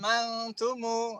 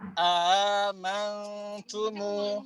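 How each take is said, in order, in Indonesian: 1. Hamzah pertama dihilangkan sama sekali. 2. Hamzah pertama dibaca, hamzah kedua diringankan. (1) "menggugurkan hamzah pertama. Kemudian membaca seperti Hafs" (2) "mentahqiq hamzah pertama, mentasil hamzah kedua, dan menjadikan mat hamzah ketiga"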